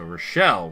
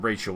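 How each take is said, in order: First: The name is said the French way. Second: The name is said the English way. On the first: "her mom is actually French, so Rochelle would also be appropriate" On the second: "the boring English pronunciation of her name"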